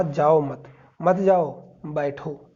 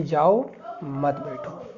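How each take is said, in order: First: "जाओ मत" grouped together, "बैठो" set apart; pause after मत. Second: Slow, "जाओ" alone, then "मत बैठो"; pause after जाओ. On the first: Teacher explaining what was said, मत grouped with जाओ. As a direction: keep मत with जाओ, then separate बैठो. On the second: Teacher explaining what was heard, slow break after जाओ. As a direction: split जाओ off from मत बैठो, slowly. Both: Shown as a demonstration. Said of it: "अल्प विराम है, इसकी वजह से इसका अर्थ बदल गया है".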